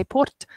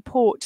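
First: "port" with an audible R before the T; R pronounced in port. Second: Said in the usual way. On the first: Shown as a demonstration. Teacher showing how Scots might say it, "port" with the R sounded. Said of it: "they might say the R". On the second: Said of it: "Is the R in port silent?".

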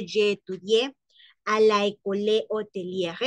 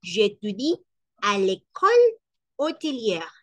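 First: "à la école" with both vowels fully said, no elision; wrong take saying "la école" separately. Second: "à l'école" with the vowels run together into "l'école"; correct "l'école". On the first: Teacher shows the wrong form "à la école". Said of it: "No decimos". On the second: Teacher models the right "à l'école" with elision. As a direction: correct take, "l'école" elided as one word. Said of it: "sino que decimos". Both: Shown as a demonstration.

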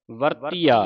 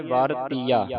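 First: ਵਰਤੀਆ as varteeaa, short first vowel; traditional pronunciation. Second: ਵਰਤੀਆ broken as vaar-teeaa; common misreading. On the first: Teacher giving the tradition's reading, correct pronunciation. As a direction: join ਵਰਤੀਆ firmly as varteeaa. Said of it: "ਇਸ ਦਾ ਜਿਹੜਾ ਉਚਾਰਨ ਸੰਪਰਦਾ ਵਿੱਚ ਕਰਾਇਆ ਜਾਂਦਾ". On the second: Teacher quoting how congregations read it, mistaken pronunciation. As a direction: show the mistaken split of ਵਰਤੀਆ. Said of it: "ਹੁਣ ਕਈ ਸੰਗਤਾਂ ਨੂੰ ਪੜ੍ਹ ਜਾਂਦੀਆਂ ਵਰਤੀਆ". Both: Shown as a demonstration.

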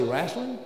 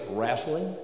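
First: Wrestling said as "RESS-ling", ordinary short vowel. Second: Wrestling said slow and lower, with a country vowel; southern wrestling. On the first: Preacher gives the standard wrestling to compare. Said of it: "the difference when I say wrestling or wrestling". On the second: Preacher shows how he says wrestling, slow and low. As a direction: drawl out wrestling the way a Southern country boy does. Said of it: "when I say the word wrestling". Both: Shown as a demonstration.

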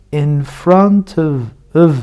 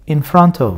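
First: In front of with of reduced to a schwa and v; blurred, quick in front of; fast reduced. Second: Said in the usual way. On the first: Shown as a demonstration. Teacher shows how in front of sounds in fast speech. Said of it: "Hızlı okuduğunda". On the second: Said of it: "Normal okuduğunda".

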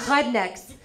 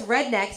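First: "Rednecks" with a throaty H for R; foreign pronunciation. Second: Said in the usual way. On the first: Retold or imitated. Repeating grandma's insult, "Rednecks" with throaty foreign R. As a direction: say "Rednecks" as "hudnecks", European accent. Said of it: "for people who can't speak English real good". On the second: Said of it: "That's rednecks for people who can't speak English".

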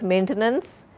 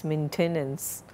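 First: MAINTENANCE as the mistaken form, ending on a rise; wrong maintenance. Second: MAINTENANCE as MEN-te-nance, softer and falling; correct maintenance. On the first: Teacher citing the students' error, maintenance left rising. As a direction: lift the end of maintenance as the rejected version. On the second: Teacher correcting students, maintenance said softly with a final fall. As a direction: settle softly on maintenance with the middle E. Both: Shown as a demonstration. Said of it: "It's not maintenance".

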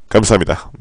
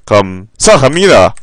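First: Said in the usual way. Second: 1 drawn-out thanks. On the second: Real, not acted. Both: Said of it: "별풍선 구십 개".

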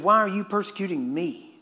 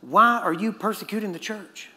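First: "me" as the corrected word, closing the question; stress on ME. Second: "church" as the contrasted word, "Why" hit first; stress on CHURCH. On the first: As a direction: point up "me" as the true target. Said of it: "He said". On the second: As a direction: point up "church" as the wrong target. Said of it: "Jesus did not say". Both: Shown as a demonstration.

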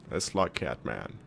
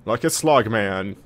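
First: Much lower, slow mock he-man voice; deep manly voice. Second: Mock manly. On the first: Player mocking the crowd's demand to be manly, deep and slow. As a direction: drop way down like a parody tough guy. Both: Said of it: "The crowd wants me to fight like a man".

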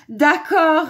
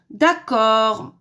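First: High, loud, cheerful okay; amused agreement. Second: Loud, drawn-out grumbling okay; grumbled agreement. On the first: Wolf agreeing to do dishes, high amused voice. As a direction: agree loudly with mild amusement. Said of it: "répondit en riant le méchant, méchant loup". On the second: Wolf told to fix the aerial, grumbled consent. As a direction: agree with a reluctant growl. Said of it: "grogna le méchant, méchant loup". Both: A narrator's reading.

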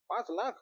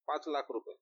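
First: lakh rising high in disbelief; surprised echo. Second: Said in the usual way. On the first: Acted. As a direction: repeat पाच lakh as a stunned question. Friend echoes sum in shock.

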